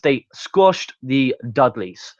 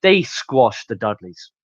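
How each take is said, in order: First: "squashed" drawn out slowly, each word separate; slow, deliberate insistence on "squashed"; stress on SQUASHED. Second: Said in the usual way. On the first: Real, not acted.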